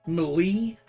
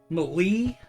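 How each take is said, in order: First: It is said with a strong E sound. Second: The same.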